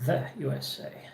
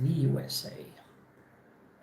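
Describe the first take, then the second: First: The word 'the' has a short 'thuh' vowel. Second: The word 'the' has a long 'thee' vowel. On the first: The speaker calls it right. "we say the U S A" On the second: The speaker calls it wrong. "instead of the U S A"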